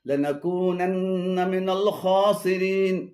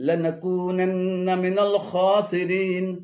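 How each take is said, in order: Both takes have the same delivery.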